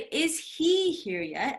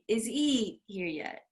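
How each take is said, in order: First: The h in 'he' is clearly pronounced. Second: The h is dropped, linking 'is' and 'he'. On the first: The speaker calls it wrong. "So I don't say" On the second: The speaker calls it right. "I said"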